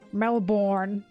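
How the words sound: It is said in an American accent. "I always hear Americans pronounce Melbourne"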